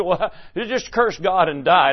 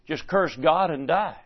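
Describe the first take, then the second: First: Chuckling through the wife's words; half-laughing as you quote her scorn; laughing mock quote. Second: Said in the usual way. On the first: Preacher laughingly quoting Job's wife, amused mock scorn. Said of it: "She said". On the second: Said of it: "may have been a suggestion to just".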